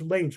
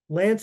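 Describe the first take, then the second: First: The vowel is long, as in 'lane'. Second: The vowel is short, as in 'pan'. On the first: The speaker calls it wrong. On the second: The speaker calls it right.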